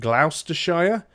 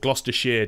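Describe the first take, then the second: First: It is said the way Americans say it. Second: It is said the British way, starting with Gloss. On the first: The speaker calls it wrong. "a lot of Americans that I know pronounce it Gloucestershire" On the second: The speaker calls it right. "in the U K it's Gloss"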